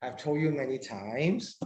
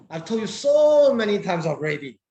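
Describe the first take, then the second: First: Said in the usual way. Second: "I've told you so many times already" said louder, leaning on "so"; teacher stressing "so many times already" to show emphasis; emphatic. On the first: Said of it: "The meaning is different". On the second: Shown as a demonstration. A teacher demonstrates "already" for emphasis, loud and insistent. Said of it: "it's more for emphasis".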